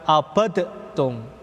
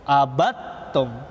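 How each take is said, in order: First: The d is released with a bounce. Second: The d merges into the following t. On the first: The speaker calls it wrong. "Dia bukan dibaca abadtum" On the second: The speaker calls it right. "dalnya diidghamkan kepada huruf ta"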